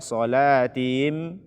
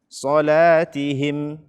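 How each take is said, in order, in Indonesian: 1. Huruf h dan vokal i-nya tertelan. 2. Huruf h dan vokal i-nya diucapkan dengan jelas. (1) "Jangan dibaca" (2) "bacalah dengan benar"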